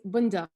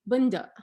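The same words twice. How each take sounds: First: It is said in Standard Arabic, final q sounded. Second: It is said in a Levantine accent, final q dropped.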